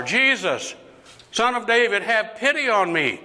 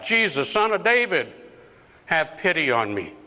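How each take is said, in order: First: High-pitched pleading call, sustained to the end; insistent acted cry for pity; calling out more insistently. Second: Higher-pitched plea, easing at the end; acted cry for attention; calling out. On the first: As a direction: call out harder, refusing to be silenced. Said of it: "he called out even louder". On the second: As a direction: call out for pity as Jesus passes. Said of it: "he called out".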